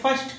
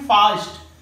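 First: It has an American short 'a' vowel. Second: It has a British long 'ah' vowel.

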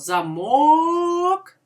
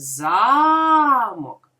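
First: The stress is on the second syllable. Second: The stress is on the first syllable. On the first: "ми чуємо голосно звук О" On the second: "ми чуємо голосно звук А"

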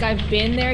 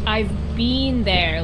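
First: The word been rhymes with bin. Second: The word been rhymes with bean. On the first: "instead of saying bin like I've been there" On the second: "he goes I've been there like a little bean"

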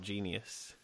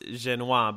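First: It is said like the English word genius. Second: It is said in the family's own pronunciation. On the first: This reads the name as it is spelled. "we should really pronounce it how it's spelled" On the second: This is how the name is really pronounced. "I know your last name is pronounced Jenois"

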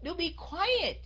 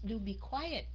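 First: It is said sharply and irritably. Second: It is said softly and gently. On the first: The speaker is annoyed. "khi mà mình giận, mình cáu lên rồi" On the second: The speaker is persuading or pleading. "Hoặc là mình nói nhỏ nhẹ"

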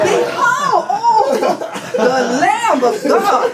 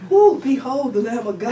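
First: It is said as a loud shout. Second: It is said calmly and quietly.

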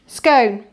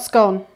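First: The vowel rhymes with cone. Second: The vowel rhymes with con. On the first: The speaker calls it right. "Traffic cone. That's it, traffic cone" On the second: The speaker calls it wrong. "It's not a traffic con"

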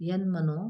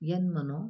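No difference in how they are said.

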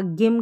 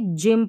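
First: The word starts with a hard g sound. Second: The word starts with a j sound. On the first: The speaker calls it wrong. "नहीं पढ़ सकते" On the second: The speaker calls it right. "जी को ज पढ़ेंगे"

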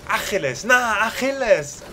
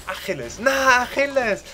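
No difference in how they are said.

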